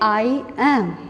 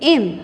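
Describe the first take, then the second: First: It is said as two separate words. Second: It is said as one contracted word. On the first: "जब हम ये अकेले अकेले बोलेंगे" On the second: "जब इनको कॉन्ट्रैक्ट कर देंगे, इकट्ठा कर देंगे तो बोलेंगे"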